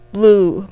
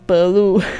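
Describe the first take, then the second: First: The b and l are joined with no vowel. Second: An extra vowel separates the b and l. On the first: The speaker calls it right. "BL 也是一个组合" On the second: The speaker calls it wrong. "不要变成blue"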